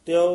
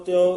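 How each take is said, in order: The two takes are said the same way.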